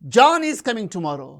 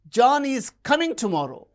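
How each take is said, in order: First: The stress falls on the word John. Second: The stress falls on the word coming. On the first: John is the one coming, not someone else. "not Mary" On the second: He is coming, not going. "he is not going"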